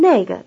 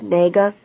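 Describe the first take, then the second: First: The first syllable has a falling tone. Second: The first syllable has a non-falling tone. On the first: It points to that one. "The word that, 那个, has a falling tone" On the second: It asks which one. "This difference in tones is the only thing which distinguishes 那个 which"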